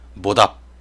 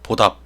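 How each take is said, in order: First: The first consonant is heavily voiced and buzzy. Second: The first consonant bursts with little voicing. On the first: "좀 느끼하게" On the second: "조금 소리가 터진 소리가 많이 나고 그, 그 뭐랄까요? 성대가 좀 덜 떨립니다"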